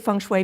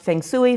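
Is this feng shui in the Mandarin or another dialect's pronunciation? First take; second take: Mandarin; other dialect. First: It is said with the Mandarin pronunciation. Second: It is said with another dialect's pronunciation. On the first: "that's the Mandarin pronunciation" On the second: "It just depends upon the dialect"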